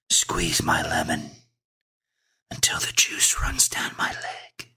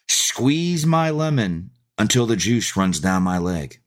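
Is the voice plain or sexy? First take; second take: sexy; plain. First: It is said in a sexy voice. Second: It is said in a plain voice.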